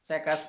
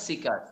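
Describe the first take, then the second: First: The first vowel is a short 'e'. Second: The first vowel is a long 'ee'. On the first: The speaker calls it wrong. "সেকার্স না" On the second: The speaker calls it right. "না সিকার"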